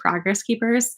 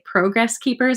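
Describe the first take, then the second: First: Progress is said with a non-Canadian pronunciation. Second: Progress is said with a Canadian pronunciation. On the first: "instead of progress keepers" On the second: "the Canadian podcasters say progress keepers"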